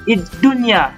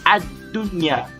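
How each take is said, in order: First: The word begins with an i vowel. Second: The word begins with an a vowel. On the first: The speaker calls it wrong. "Kita tak baca id-dunya" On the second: The speaker calls it right. "Seperti ad, ad-dunya"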